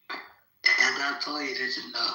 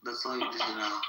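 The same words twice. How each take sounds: First: "that's" stressed, each word slow and deliberate; "that's" hit hard, slow, final; slow emphatic repeat. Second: Said in the usual way. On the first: Real, not acted. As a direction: lean on "that's" and drag out "all you need to know". Repeated punchline, emphatic take.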